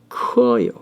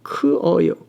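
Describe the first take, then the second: First: The 'eu' vowel is dropped, sounds run together. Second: The 'eu' vowel is heard before 'eo'.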